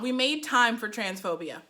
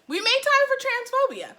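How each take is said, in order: First: Said in the usual way. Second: Very high-pitched disbelief; high, appalled exclamation; incredulous repeat. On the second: Real, not acted. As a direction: repeat it in a raised, incredulous squeal. Incredulous repeat of her note.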